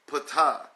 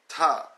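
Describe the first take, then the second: First: The initial P sound is pronounced. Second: The initial P sound is left out. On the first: The speaker calls it wrong. "some will say Ptah" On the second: The speaker calls it right. "the P is silent"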